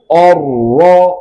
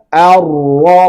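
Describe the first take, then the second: First: The first vowel is a thick, rounded o. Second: The first vowel is a clear, thin a. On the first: The speaker calls it wrong. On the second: The speaker calls it right. "harus dibaca A"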